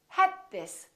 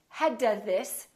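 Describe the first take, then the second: First: The d is held without release. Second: The d is released before this. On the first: The speaker calls it right. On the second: The speaker calls it wrong. "So don't say"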